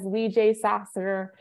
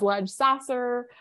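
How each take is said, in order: First: The first part is two syllables, like 'lee jay'. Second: The first part is one syllable, like 'ledge'. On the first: This is the preferred way to say it. "I like to pronounce it as Lee J. Sasser" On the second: Other people commonly say it this way. "some people will pronounce it as Ledge Sasser"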